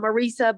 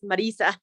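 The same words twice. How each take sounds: First: The name is said with an English pronunciation. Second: The name is said with a Spanish pronunciation. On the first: This is how people in the U S say it. The speaker calls it wrong. "I'm used to being called" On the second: This is the name's real pronunciation. The speaker calls it right. "but it's"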